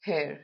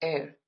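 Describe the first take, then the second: First: The word starts with an h sound. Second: The word starts without an h sound. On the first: The speaker calls it wrong. "not hair" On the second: The speaker calls it right. "we pronounce it as air"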